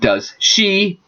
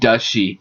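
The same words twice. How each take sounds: First: The two words are said separately, with the Z. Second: The words blend into one word, the sh replacing Z.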